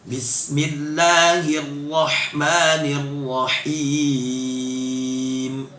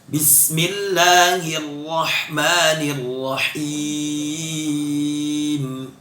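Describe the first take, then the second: No difference in how they are said.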